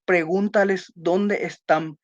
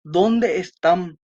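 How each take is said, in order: First: Said in the usual way. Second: Slow, drawn-out question tune on ¿Dónde están?; direct question. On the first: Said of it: "Vieron que acá no tiene lo, ese signo de interrogación". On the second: Shown as a demonstration. Teacher models a direct question for the class, slow and questioning. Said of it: "Si yo dijera".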